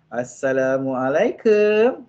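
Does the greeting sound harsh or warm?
warm. The greeting sounds warm and gentle. The spouse will surely get a hug. The speaker calls it right. "Memang kena peluk"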